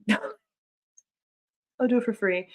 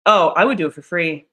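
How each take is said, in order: First: Very slow, laughing through the words; slow laughing repeat; laughing, drawn out. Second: Said in the usual way. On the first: Real, not acted. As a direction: laugh it out slowly.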